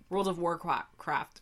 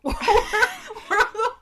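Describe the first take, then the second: First: Said in the usual way. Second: High, slow words broken by laughter; laughing. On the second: Real, not acted. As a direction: crack up mid-word. Repeats name, breaks up laughing.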